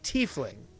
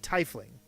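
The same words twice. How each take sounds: First: It is pronounced with German-style vowel sounds. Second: It is pronounced with old English-style vowel sounds. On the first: "pronounced in a German manner" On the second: "like an old English way"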